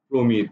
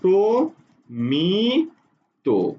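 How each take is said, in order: First: It is said smoothly as one word. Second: It is said slowly with pauses between syllables.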